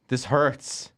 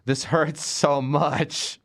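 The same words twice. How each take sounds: First: Said in the usual way. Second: Slow, drawn-out mock suffering; dragged-out comic misery; mock anguish. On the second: Real, not acted. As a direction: stretch the hurts out in pretend pain. Pained by reviewing the movie.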